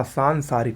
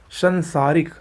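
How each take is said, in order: First: सांसारिक with a long first "saan"; correct pronunciation. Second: संसारिक with a short first vowel; wrong pronunciation. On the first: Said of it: "सांसारिक होता है". (सांसारिक में लंबा "सां") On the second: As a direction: say संसारिक with "san", not "saan". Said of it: "का सांसारिक होता है". (संसारिक का पहला स्वर छोटा) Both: Shown as a demonstration.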